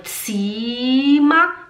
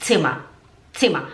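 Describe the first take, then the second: First: "Zimmer" with a long, stretched i; wrong long vowel. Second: "Zimmer" with a short, quick i; short vowel. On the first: Teacher shows the mistake, long-vowel "Zimmer". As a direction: draw out the i in "Zimmer" slowly. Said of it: "Agora tem dois M's, não é". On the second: Teacher models the correct word, short-vowel "Zimmer". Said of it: "Agora tem dois M's". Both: Shown as a demonstration.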